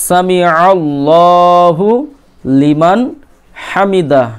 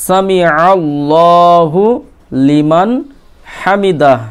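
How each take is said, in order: No difference in how they are said.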